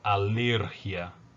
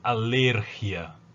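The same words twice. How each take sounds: The two takes are said the same way.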